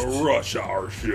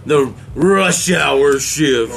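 First: "The rush hour shift" laut gerufen, steigend am Ende; echoing shout. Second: Langsam und betont: "the rush hour shift" mit Nachdruck auf "rush"; slow stress. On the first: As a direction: wiederholt es als lauten Ausruf. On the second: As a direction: jedes Wort gedehnt, "rush" hervorgehoben. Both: Real, not acted.

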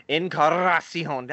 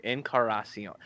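First: Encarnacion with a rolled R in the middle, slow. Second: Said in the usual way. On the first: Shown as a demonstration. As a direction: trill the R in Encarnacion. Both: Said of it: "Can you roll the R in the middle".

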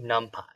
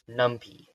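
First: "numpy" ending in a "pie" sound. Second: "numpy" ending in a "pee" sound. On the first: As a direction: say "numpy" with the last syllable like "pie". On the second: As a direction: say "numpy" to rhyme with "lumpy". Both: Shown as a demonstration. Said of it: "Am I pronouncing it wrong?".

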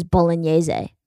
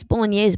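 First: "bolognese" with an extra final syllable, -YAY-zay; Italian-style bolognese. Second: "bolognese" ending on -YAYZ, no final vowel; standard bolognese. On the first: Retold or imitated. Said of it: "every Italian I know says bolognese". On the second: Shown as a demonstration. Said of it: "I think it's bolognese".

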